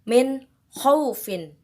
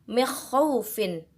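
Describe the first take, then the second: First: The n sound is pronounced clearly. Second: The n sound is blurred, not clearly pronounced. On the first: The speaker calls it right. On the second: The speaker calls it wrong.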